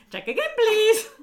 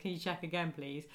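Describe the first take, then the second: First: Piercing, very loud mimicked squeal; comic sugar-high yell, far above normal pitch; high-pitched shouting. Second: Said in the usual way. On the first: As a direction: parrot it back in a hyper shriek. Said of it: "sort of high-pitched sort of shouting". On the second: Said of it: "where Chandler goes".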